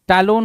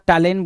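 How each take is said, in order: First: The second syllable has an 'o' vowel. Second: The second syllable has an 'e' vowel. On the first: The speaker calls it right. "टैलोन होना चाहिए था" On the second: The speaker calls it wrong. "टैलेन बोल रहा है"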